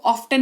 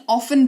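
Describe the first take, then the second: First: ऑफ्टन with the T sounded; wrong pronunciation. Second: ऑफन with no T; correct silent T. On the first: Teacher showing the mistake, ऑफ्टन with T voiced. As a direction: say ऑफ्टन as "of-tan". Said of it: "ऑफ्टन नहीं". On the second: Teacher showing the silent T in ऑफन. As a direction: say ऑफन, F straight into the vowel. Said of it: "ऑफन पढ़ेंगे इसको". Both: Shown as a demonstration.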